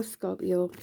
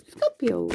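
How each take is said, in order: First: Said in the usual way. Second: Mock-announced "Scorpio" with a swooping fall; playful catchphrase delivery. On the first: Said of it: "I always feel like I have to". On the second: Shown as a demonstration. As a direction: toss out "Scorpio" as a comic catchphrase. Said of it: "say it like that".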